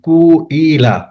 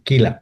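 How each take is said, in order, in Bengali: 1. শব্দটি u স্বরধ্বনি দিয়ে শুরু, তারপর i। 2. শব্দটি শুধু i স্বরধ্বনি দিয়ে শুরু। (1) "যদি এখানে পেশ থাকতো তাহলে এটা উচ্চারণ হতো" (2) "রূপান্তরের মাধ্যমে কিলাতে নিয়ে আসছে"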